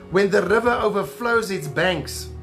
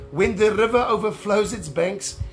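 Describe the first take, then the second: The two takes are said the same way.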